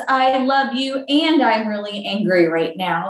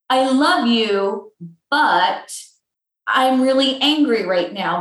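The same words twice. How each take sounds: First: And stressed, flowing straight into I'm really angry right now. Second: I love you slow, then but set apart by a pause before I'm really angry right now; stress on but. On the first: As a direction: let and join both halves in one breath. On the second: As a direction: lean on but so it cuts the sentence in two. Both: Shown as a demonstration.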